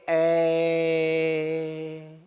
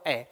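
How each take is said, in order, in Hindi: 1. स्वर को बहुत देर तक खींचा जाता है। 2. स्वर सामान्य लंबाई तक बोला जाता है।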